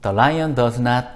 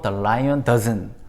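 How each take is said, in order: First: Does not is said as two full words. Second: Does not is contracted into one syllable.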